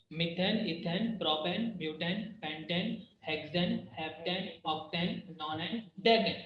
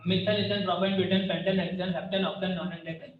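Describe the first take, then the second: First: Slow, softer, each name spelled out; slow careful recital. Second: Quick-fire recital of the list; fast recital. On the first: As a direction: list them slowly and evenly, a little softer. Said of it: "हम ये कोई टंग twister नहीं कर रहे". (धीरे और साफ़ एक-एक नाम) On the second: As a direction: rattle off the names quickly, no pauses. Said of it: "और फटाफट याद रखना है". (तेज़ी से फटाफट बोलना) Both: Shown as a demonstration.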